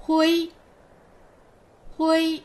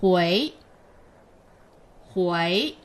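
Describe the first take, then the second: First: Hui held high and level, louder; teacher models first tone Hui. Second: Teacher models second tone Hui. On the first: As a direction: keep the pitch high and flat on Hui. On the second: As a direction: sweep Hui upward like a question. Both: Shown as a demonstration. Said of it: "Read after me".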